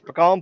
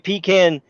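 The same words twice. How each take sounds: First: The first syllable does not sound like 'pee'. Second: The first syllable sounds like 'pee'. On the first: This is how it is said in Louisiana. The speaker calls it right. "That's how we said it in Louisiana" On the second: This is how outsiders say it. The speaker calls it wrong. "You gonna pee in whose can?"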